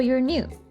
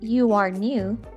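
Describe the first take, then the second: First: 'You are' is said as one contracted word. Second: 'You are' is said as two full words. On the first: "there is a contraction, your, and this makes it into a weak sound" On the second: "Instead of saying you are new"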